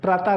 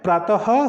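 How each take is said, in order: First: The word ends without an h sound. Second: The word ends with an audible h sound. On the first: The speaker calls it wrong. "प्रातः नहीं होता है, वो हमारे पास गलत उच्चारण हो जाता है।" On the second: The speaker calls it right. "प्रातः होता है ... यहाँ पर हमारे पास जो ह की ध्वनि है वो निकलती है।"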